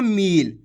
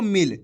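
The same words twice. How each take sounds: First: मील with a long, stretched ई; drawn-out long vowel. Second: मिल with a short इ, not drawn out; short vowel. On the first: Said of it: "अगर आप खींच के पढ़ोगे मील". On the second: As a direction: keep मिल short and crisp. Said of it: "ज़्यादा खींच के नहीं पढ़ना". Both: Shown as a demonstration.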